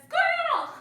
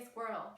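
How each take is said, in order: First: Much higher, much louder yelp of a distracted dog; cartoon dog voice. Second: Said in the usual way. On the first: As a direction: bark "Squirrel!" like the dog from Up, pointing. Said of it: "a dog who points and says". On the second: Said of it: "I say".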